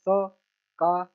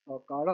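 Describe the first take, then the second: First: Very slow, each syllable held apart. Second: Said in the usual way. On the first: Shown as a demonstration. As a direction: sound it out piece by piece for a learner. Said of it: "छोटा सा letter पढ़ लेना". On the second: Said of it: "इसको बस मिला के पढ़ना है".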